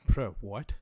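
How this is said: The voice sounds puzzled and confused. The speaker does not understand what was said. "This is confusion"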